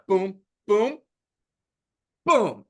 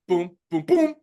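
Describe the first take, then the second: First: It is said at a steady metronome pace. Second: It is said at a quicker, sped-up pace.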